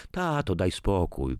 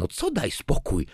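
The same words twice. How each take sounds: First: Mild, weary-sounding plea; pleading. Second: Higher, exasperated retort; indignant echo. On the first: Daughter asks her father to stop, mildly pleading. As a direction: gently beg him to drop it. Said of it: "prosiła Marzena". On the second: Father answers his daughter's plea, indignant. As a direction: throw the plea back as a challenge. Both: A narrator's reading.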